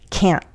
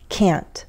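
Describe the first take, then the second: First: The final T is cut off with a glottal stop. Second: The final T is released with a small puff of air. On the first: This is everyday conversational speech. "But in everyday conversational English, I would use a glottal stop" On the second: This is careful speech. "In careful speech, I would say the T, and you might hear that little puff of air at the end"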